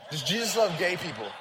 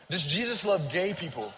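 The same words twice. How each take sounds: The two takes are said the same way.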